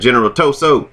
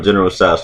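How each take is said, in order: First: The name is said with two syllables, To-so. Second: The name is said as one syllable, Tso's.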